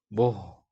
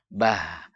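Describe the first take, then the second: First: The vowel is rounded and heavy. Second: The vowel is open and light. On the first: The speaker calls it wrong. "itu tebal" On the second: The speaker calls it right. "Terbuka mulut"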